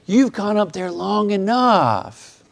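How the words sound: It is said in a gentle, compassionate tone. It is a caring relief from a burden. "a uh, compassionate uh, statement?"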